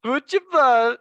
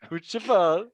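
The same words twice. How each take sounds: First: Futebol squawked high and loud like the app's voice; mock robotic Futebol, high and loud; mimicking Google. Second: Futebol echoed with a rising end, milder than the first try; half-hearted parrot of Futebol with a lift at the end; imitating Google again. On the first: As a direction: copy the translator's Futebol, loud, high and birdlike. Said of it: "That sounds like a bird". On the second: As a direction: lighter copy of the app's Futebol, ending up. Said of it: "Do it again, do it again".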